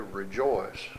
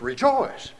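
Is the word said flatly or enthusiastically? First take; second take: flatly; enthusiastically. First: The word is said flatly, without enthusiasm. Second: The word is said with lively enthusiasm. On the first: The singer does not feel the joy. The speaker calls it wrong. "you don't really say rejoice" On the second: The singer feels real joy. The speaker calls it right. "it's rejoice"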